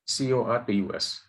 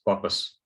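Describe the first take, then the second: First: Teacher spelling the term "C O R P U S" for the class; spelled out letter by letter. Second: Said in the usual way. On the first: Shown as a demonstration. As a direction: say each letter of "C O R P U S" separately, with a beat between.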